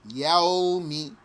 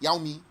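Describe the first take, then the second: First: The word is said slowly and unhurried. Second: The word is said quickly and hurried. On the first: The speaker calls it right. "take your time" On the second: The speaker calls it wrong. "Don't say"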